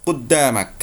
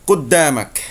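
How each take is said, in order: The two takes are said the same way.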